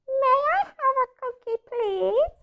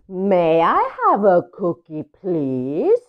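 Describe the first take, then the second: First: It is said in a smaller voice. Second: It is said in a normal-sized voice.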